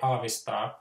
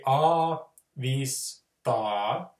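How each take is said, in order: First: The syllables run together, flat and fast, unpaused. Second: Each syllable is said separately with pauses between. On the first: "we just don't have the intervals, but we'll just say it in a really staccato manner" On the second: "we break it into syllables"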